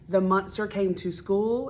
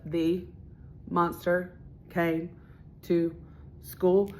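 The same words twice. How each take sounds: First: The words flow together smoothly without breaks. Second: Each word is said separately with pauses between. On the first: The speaker calls it right. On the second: The speaker calls it wrong.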